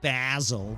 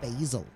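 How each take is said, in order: First: It is said with a British pronunciation. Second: It is said with an American pronunciation. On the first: This is not how the speaker's group says it. "we don't say basil" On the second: This is how the speaker's group says it. "we say basil"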